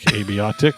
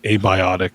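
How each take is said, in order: First: The word starts with the sounds 'a bee'. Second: The word starts with the sounds 'a bye'. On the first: The speaker calls it wrong. "abiotic is how I pronounce it because it's like a bee's dick" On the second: The speaker calls it right. "I think it's abiotic because, you know, biotic"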